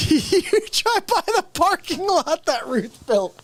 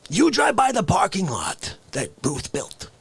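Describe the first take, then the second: First: Laughing through it. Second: Said in the usual way. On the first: Real, not acted. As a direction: repeat the line cracking up, higher.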